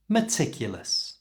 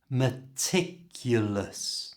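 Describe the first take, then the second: First: The word is said at normal speed. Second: The word is said slowly and carefully. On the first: "And now at normal speed" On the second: "Try it slowly"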